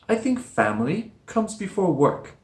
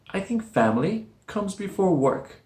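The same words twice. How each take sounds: The two takes are said the same way.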